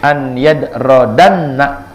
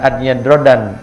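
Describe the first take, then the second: First: The final n is doubled and followed by 'a'. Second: The word ends in a single plain n. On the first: The speaker calls it right. "nunnya bertasydid, jadi an yadradanna gitu" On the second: The speaker calls it wrong.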